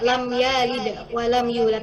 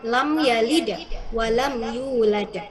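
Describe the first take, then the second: First: The vowel in 'ya' is drawn out long. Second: The vowel in 'ya' is kept short. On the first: The speaker calls it wrong. "Kalau sependengaran ibu tadi kayak" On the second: The speaker calls it right. "tapi ini pendek ya"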